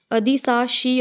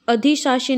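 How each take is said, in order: First: अधिशासी with "saa" in the middle; s-sound demo. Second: अधिशासी with "shaa" in the middle; wrong sibilant demo. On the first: Teacher corrects it, अधिशासी with s after dhi. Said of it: "स वाला आएगा". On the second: Teacher shows the mistake, अधिशासी with sh. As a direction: say अधिशासी as "a-dhi-shaa-shi". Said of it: "नहीं होता". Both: Shown as a demonstration.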